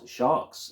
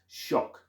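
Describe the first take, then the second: First: The word is said as sharks. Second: The word is said as shock. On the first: The speaker calls it wrong. "It is not sharks" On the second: The speaker calls it right. "I think I finally said it correctly"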